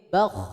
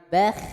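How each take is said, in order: First: The sound is thick and made deep in the throat. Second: The sound is thin and made forward in the mouth. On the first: The speaker calls it right. "tapi bakh di dalam, di tenggorokan" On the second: The speaker calls it wrong. "Jangan bakh"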